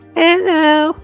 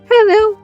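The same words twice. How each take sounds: First: It is said in a less convincing child voice. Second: It is said in a more convincing child voice.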